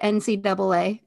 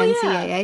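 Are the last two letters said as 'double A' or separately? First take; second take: double A; separately. First: The last two letters are said as 'double A'. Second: The last two letters are said one by one. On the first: This is the older way to say it. "is your default to say N C double A" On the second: This is the newer way to say it. "instead of N C A A?"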